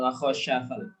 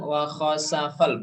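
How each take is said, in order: First: The middle consonant is an sh sound. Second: The middle consonant is a plain s sound. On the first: The speaker calls it wrong. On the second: The speaker calls it right. "Wa khosa pakai sin"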